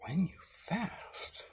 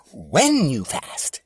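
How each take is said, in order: First: Slow whispered "When you fast"; hushed slow whisper of "When you fast"; whispered scripture. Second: Slow, loud, weighty quote; slow and loud, each word of "When you fast" set apart; quoting scripture. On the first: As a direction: breathe "When you fast" slowly, like a secret. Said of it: "So Jesus said". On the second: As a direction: lean hard into each word, "When" dropping. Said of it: "the same part where it says". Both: Shown as a demonstration.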